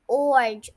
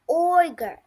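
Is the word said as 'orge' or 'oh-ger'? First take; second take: orge; oh-ger. First: The r sound comes before the g. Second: The g sound comes before the r. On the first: The speaker calls it wrong. "please don't pronounce it like orge" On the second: The speaker calls it right. "It is ogre"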